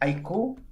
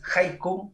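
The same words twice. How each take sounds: First: The stress is on the last syllable. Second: The stress is on the first syllable. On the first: It names the band with a Chilean twist. "con acento en, en la U" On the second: It names the Japanese poem form. "no es haiku como lo- los poemas"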